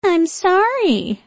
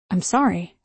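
First: Put-on high, slow, whiny baby voice; mock the apology like a baby; high baby voice mockery. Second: Said in the usual way. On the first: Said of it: "mimicking me in a high baby voice".

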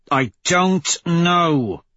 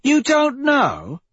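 First: Drawn-out, higher-pitched impatient retort. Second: Very high, drawn-out incredulous question; incredulous echo. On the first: Severo answering the narrator about the bombing, impatiently. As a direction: stretch DON'T and KNOW out with impatience. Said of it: "Severo says impatiently". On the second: Victra challenging Severo's answer, incredulous. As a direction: throw it back slowly, pitched way up in disbelief. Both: A narrator's reading.

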